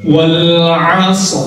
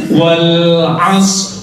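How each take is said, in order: Both takes have the same delivery.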